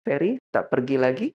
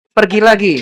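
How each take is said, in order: First: Calm, measured question; composed acted spouse holding back annoyance; controlled tone. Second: Loud, high acted retort; raised, high-pitched mock scolding. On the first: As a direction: keep the voice down and ask evenly. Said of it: "dia ngatur nadanya". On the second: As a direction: act out an irritated spouse raising the voice. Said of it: "bisa lebih tinggi lagi".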